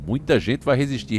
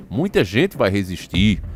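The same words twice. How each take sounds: First: Said in the usual way. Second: Slow, lower-pitched, mildly ironic quote; somewhat ironic. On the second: Retold or imitated. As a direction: draw it out with a touch of irony. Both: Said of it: "ele fala isso meio com tom irônico".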